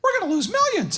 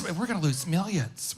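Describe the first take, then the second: First: Much higher, light falsetto wife; high mock wife voice. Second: Quieter and slower, calm and measured; a calm, confident take on the wife's warning; softer, slower wife voice. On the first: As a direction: squeak it out like a worried wife. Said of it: "That's probably how it was". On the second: Retold or imitated. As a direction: say it gently but confidently. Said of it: "feminine in nature, but confident".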